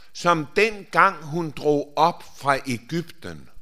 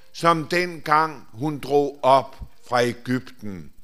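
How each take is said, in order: The two takes are said the same way.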